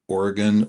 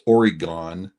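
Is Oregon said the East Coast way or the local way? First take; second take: local; East Coast. First: It is said the local, non-East Coast way. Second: It is said the East Coast way.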